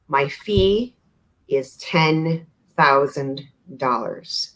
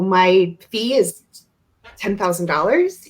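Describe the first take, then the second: First: Firm and flat, with no rise at the end. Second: Playful and lilting, rising at the end. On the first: The point is not open to discussion. "when it's a non negotiable" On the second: The point is open to discussion. "a really playful voice and maybe some uplift at the end"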